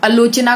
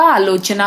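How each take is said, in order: First: आलोचना begun with short "a"; shortened vowel. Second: Said in the usual way. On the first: Shown as a demonstration. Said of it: "आलोचना होगा". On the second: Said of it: "आ का ये लोग अ".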